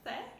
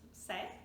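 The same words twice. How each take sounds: First: The letter is said in a Spain Spanish accent. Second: The letter is said in a Mexican Spanish accent. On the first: "in Spanish Spanish" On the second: "in Mexico and in other countries in Latin America"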